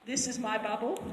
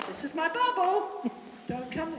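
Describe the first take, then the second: First: Said in the usual way. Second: A lightly voiced mare, higher and firm; mare warning. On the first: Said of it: "It's like a mare that goes". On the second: A mare warning another horse off, higher and firm. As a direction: warn off like a bossy mare. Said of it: "a mare that goes".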